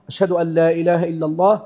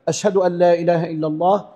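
The two takes are said the same way.

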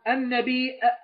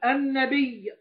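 First: It ends with a glottal stop. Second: It ends with a doubled y sound. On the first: "بياء واحدة آخرها إيه؟ همزة متطرفة" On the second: "بياء مشددة أصلها ياءين"

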